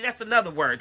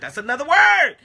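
First: Softer, dropped low and in; quiet aside. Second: Emphatic. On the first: Preacher musing to the congregation, soft aside. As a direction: let it slip out almost to yourself. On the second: Preacher declaring to the congregation, emphatic. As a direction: proclaim it to the room. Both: Shown as a demonstration.

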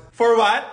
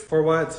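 First: Mock-outraged repeat of his words; indignant echo. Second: Said in the usual way. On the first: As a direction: throw the question back, rising and louder. Sister echoes brother in disbelief.

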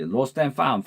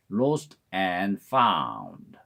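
First: Lost and found run together quickly as one word; quick, linked lost and found; fast linked. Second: Lost and found said very slowly, each word separate; very slow, careful lost and found; slow spelled-out. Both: Shown as a demonstration. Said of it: "빨리 하면 lost and found로 들립니다".

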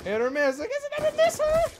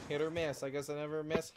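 First: High, squeaky mock singsong; squeaky hit or miss meme voice. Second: Said in the usual way. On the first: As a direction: chirp it like the viral meme girl.

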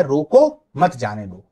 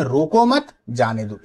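First: Loud, slow रोको, break, मत जाने दो; pause after रोको. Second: रोको मत together, then जाने दो; pause after मत. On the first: Teacher compares commas, pausing right after रोको. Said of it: "ये कॉमा यहां लगा है". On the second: Teacher reads upper version, comma pause after मत. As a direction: join रोको मत, break before जाने दो. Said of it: "एक कॉमा यहां लगा हुआ है". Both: Shown as a demonstration.

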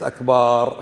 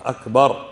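First: "أكبار" stretched to "akbaar"; "أكبار" mispronounced with a long last syllable; wrong long vowel. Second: "أكبر" said crisply as "akbar"; "أكبر" with a quick, short final syllable; correct short vowel. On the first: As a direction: hold the aa in "أكبار". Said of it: "هي ليست أكبار". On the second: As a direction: keep the last vowel of "أكبر" short, louder. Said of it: "هي إيش؟". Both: Shown as a demonstration.

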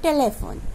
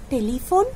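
First: "Telephone" as TE-le-fon, falling; corrected pronunciation. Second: "Telephone" as te-LI-fon, rising; mispronounced. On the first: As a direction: say "Telephone" with "le", not "li". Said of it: "It's telephone". ("Telephone" শুদ্ধ করে, টেলে-ফোন, নামা সুরে) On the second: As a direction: ask "Telephone" with "li" in the middle. Wrong take, then corrected by teacher. ("Telephone" ভুল উচ্চারণে, টেলিফোন, প্রশ্নের সুরে) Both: Shown as a demonstration.

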